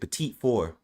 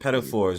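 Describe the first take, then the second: First: The first part sounds like 'peh-teet', ending long. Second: The first part sounds like 'petty', two short syllables. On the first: The speaker calls it right. "We pronounce it petite four" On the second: The speaker calls it wrong. "we don't pronounce it pedophores"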